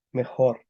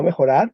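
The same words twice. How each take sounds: First: "Mejor" stopping on the r after o; no final AR. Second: "mejorar" with an added ar, punched louder; mistaken extra AR. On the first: Teacher gives the class the corrected word, no AR. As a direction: say "Mejor" as me-khor, two syllables. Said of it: "porque no hay ar". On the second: Teacher repeats the student's wrong answer, extra AR. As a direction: say "mejorar" as me-kho-rar, three syllables. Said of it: "No mejorar". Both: Shown as a demonstration.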